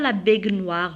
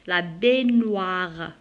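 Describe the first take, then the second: First: The g and n are said separately. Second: The gn is one soft ny sound. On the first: The speaker calls it wrong. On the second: The speaker calls it right.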